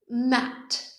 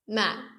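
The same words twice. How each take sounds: First: The final T is released with an audible puff. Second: The final T is held silently without release. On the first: "we make a big T at the end of it. You make the noise when you exhale" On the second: "they would just say Matt and then breathe silently"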